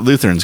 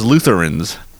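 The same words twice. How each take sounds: First: The word is said without the extra syllable. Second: The word is said with an extra syllable. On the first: This is how the speaker has always heard it. "I still pronounce it Lutherans because that's how I've heard it my whole life" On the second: This is how someone else says it. "she like puts an extra syllable in it. She says Lutherans"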